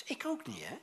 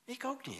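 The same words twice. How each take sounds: First: Whispered confession. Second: Said in the usual way. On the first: Acted. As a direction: whisper it like a secret admission. Confessional aside to congregation.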